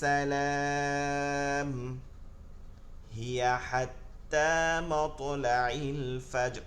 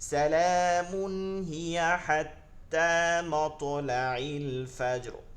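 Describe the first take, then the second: First: There is a pause after salam before hiya. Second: Salamun runs straight into hiya without a pause. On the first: "আবার এটাকে বিপরীত পড়তেছি।" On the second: "তো আমি এখানে থামছি না, তাহলে কি করতে হবে, এইখানে মিলাই পড়তে হবে।"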